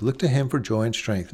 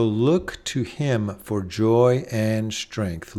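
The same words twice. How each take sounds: First: Said in the usual way. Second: Slow, deliberate, each word weighted; a preacher savoring the line slowly; slow emphatic refrain. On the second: Shown as a demonstration. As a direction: lay out "look to him for joy and strength" word by word. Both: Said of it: "repeated refrain, slow then plain".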